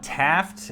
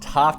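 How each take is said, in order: First: It is said in a standard American accent. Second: It is said in a non-American accent.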